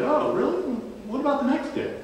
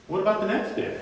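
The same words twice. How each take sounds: First: Pitched-up sarcastic buddy; mock innocence, needling him; teasing friend poking with a question; a bit of sarcasm. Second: Pitched-up teasing repeat; mock-innocent buddy needling Peter; needling question. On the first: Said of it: "with a bit of sarcasm". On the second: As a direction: poke him one more time. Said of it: "he can get under Peter's skin".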